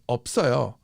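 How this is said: The pitch moves up and down across the word. The speaker calls it right.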